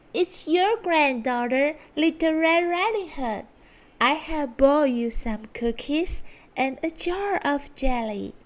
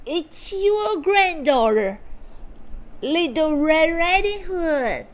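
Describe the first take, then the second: First: Put-on higher girlish voice; sweet little girl answering. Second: High put-on girlish voice; the wolf pretending to be the girl, pitched higher; wolf faking a girl. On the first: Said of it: "and answered". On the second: Wolf at the door posing as granddaughter, high fake girl voice. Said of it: "said the wolf". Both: A narrator's reading.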